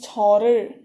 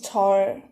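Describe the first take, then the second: First: It is said in the full two-syllable form. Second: It is said in a shortened one-syllable form. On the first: "object particle, it becomes chorer" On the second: "when you speak, there are times when it becomes chor"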